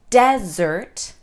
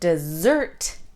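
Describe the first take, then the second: First: The stress is on the first syllable. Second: The stress is on the second syllable. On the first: It names a dry and barren place. "If we stress the first sound" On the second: It names a sweet treat. "If we stress the second sound"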